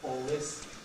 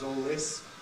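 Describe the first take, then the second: No difference in how they are said.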